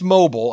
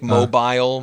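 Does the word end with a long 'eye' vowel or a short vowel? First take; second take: short; long I. First: The last syllable has a short, reduced vowel. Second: The last syllable has a long 'eye' vowel. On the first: This is the ordinary everyday pronunciation. "It's mobile, obviously" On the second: The word is stretched to fit the music. "That long I"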